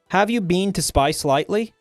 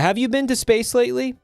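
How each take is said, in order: First: It is said in an Australian accent. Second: It is said in the speaker's ordinary accent.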